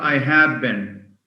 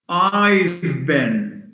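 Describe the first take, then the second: First: Have is said in full as a word. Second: Have is contracted to a short v sound. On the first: The speaker calls it wrong. "not I have been" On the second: The speaker calls it right. "I've, not I have been"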